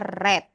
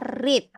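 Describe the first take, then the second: First: It is pronounced as the past-tense form. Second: It is pronounced as the present-tense form. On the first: It is the past form of the verb. "Tapi kalau kata kerja kedua, kita bacanya read" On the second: It is the base form of the verb. "Kalau dia kata kerja pertama, kita bacanya read"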